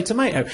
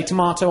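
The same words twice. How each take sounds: First: "tomato" with an AY in the middle; American tomato. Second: "tomato" with a long AH in the middle; British tomato. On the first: Giving his own side of the debate, "tomato" with an AY. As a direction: say "tomato" as tuh-MAY-toh. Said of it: "I say tomato". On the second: Quoting the friend's side of the debate, "tomato" with an AH. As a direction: say "tomato" as tuh-MAH-toh. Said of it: "you say tomato". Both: Acted.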